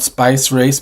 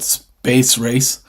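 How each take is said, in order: First: The first word has the vowel of 'ice'. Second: The first word has the vowel of 'ace'. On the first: The speaker calls it wrong. "Not spice race" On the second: The speaker calls it right. "but space race"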